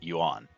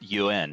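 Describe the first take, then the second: First: The vowel sounds like a plain A. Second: The vowel sounds more like an E. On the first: The speaker calls it wrong. "and not Yuan" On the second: The speaker calls it right. "the A in Yuan is pronounced more like an E than an A"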